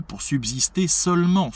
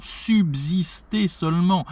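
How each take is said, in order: First: Said in the usual way. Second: "Subsister" hammered home for the class; emphatic repeat. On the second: Shown as a demonstration. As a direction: lean hard on each syllable of "Subsister", pitched well up. Repeats phrase to underline word choice.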